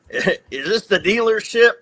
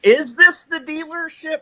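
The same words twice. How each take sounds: First: Tentative phone question. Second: High-pitched, incredulous re-asking; mock bewildered phone query; baffled repeat question. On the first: Retold or imitated. First time asking on phone. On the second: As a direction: ask it high, as if nothing makes sense.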